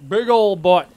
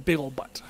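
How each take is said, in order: First: Put-on "Big old but" said louder with a push on "old"; emphatic repeat of "Big old but"; stressed. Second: Said in the usual way. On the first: Shown as a demonstration. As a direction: lean hard into "old". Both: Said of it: "I have a but there".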